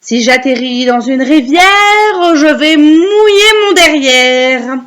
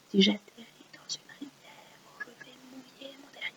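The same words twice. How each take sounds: First: Slow, swelling singsong recital; recite for repeating. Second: Barely audible whisper; whispered echo. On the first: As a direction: draw the verse out loud and long. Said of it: "vous allez réciter après moi". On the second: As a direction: whisper the verse back very faintly. Echoing the line for pupils. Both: Shown as a demonstration.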